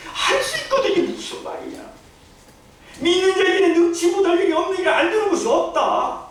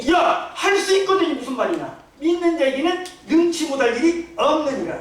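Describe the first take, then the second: First: Much higher, with laughter, mock outrage; hammed-up angry Jesus. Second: A touch of a stern, rebuking Jesus; Jesus angry. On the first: Preacher replays Jesus' rebuke to the father, hammed-up and laughing. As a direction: ham up the rebuke, laughing as you go. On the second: Retold or imitated. Jesus rebuking the father's doubting words, stern. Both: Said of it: "예수님이 화가 났어요".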